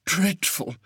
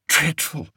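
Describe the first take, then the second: First: High, quieter shudder, trailing off; shuddering softly. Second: High shudder of disgust. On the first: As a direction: let the second dreadful fade with a shiver. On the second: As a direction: shiver through the word Dreadful. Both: A narrator's reading. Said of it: "said Fred with a shudder".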